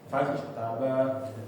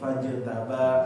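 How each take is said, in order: First: The j is released with an extra r-like sound. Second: The j is held cleanly without escaping air. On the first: The speaker calls it wrong. "jangan ke fajr" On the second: The speaker calls it right. "nggak ada anginnya lebih bagus lagi"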